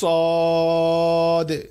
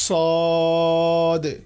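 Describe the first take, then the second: Both takes have the same delivery.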